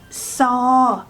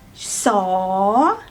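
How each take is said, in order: First: The tone stays level. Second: The tone rises.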